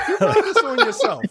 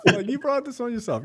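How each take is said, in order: First: High, laughing reproach; a laughing told-you-so; laughing scold. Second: Said in the usual way. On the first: Real, not acted.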